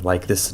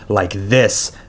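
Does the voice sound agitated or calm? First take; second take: calm; agitated. First: The voice is calm and steady. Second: The voice is agitated and upset. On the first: This is the controlled way he tries to talk. The speaker calls it right. "Ray has to work on talking like this" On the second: This is how he talks when he loses control. The speaker calls it wrong. "not like this, because he gets upset easily"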